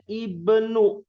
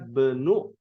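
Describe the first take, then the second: First: The word starts with a pronounced initial vowel. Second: The initial vowel is dropped, linked to preceding word. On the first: The word stands alone. "Kalau ananya hilang dibacanya ibnu" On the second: The word follows another word. "Kalau di ananya dibaca ana benu Abbasin. Harokatnya menjadi sukun"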